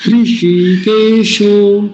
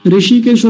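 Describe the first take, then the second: First: हृषिकेशो very slowly, hri with an h, long shee and sho; correct pronunciation. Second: ऋषिकेशो quickly, no h, short vowels like the town Rishikesh; wrong pronunciation. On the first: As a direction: lead the class, stretching हृषिकेशो. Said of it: "तो मेरे साथ बोलिए". (लंबा खींचकर शुद्ध उच्चारण) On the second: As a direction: rattle off ऋषिकेशो starting on a bare ri. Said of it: "नहीं बोलेंगे कभी". (गलत उच्चारण, बिना ह के) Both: Shown as a demonstration.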